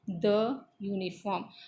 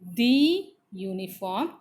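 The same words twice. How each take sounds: First: 'The' is said with a short 'uh' vowel. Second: 'The' is said with a long 'ee' vowel. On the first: The speaker calls it right. "it should be the uniform" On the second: The speaker calls it wrong. "it should not be the uniform"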